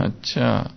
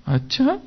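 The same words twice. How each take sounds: First: Said in the usual way. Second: अच्छा jumping high on a rising tune; a delighted, amazed अच्छा; surprised. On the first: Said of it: "एक एक line पढ़ना, सोचना". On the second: Shown as a demonstration. Reader realizing something while reading, amazed. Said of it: "आश्चर्य से पढ़ना है उसको".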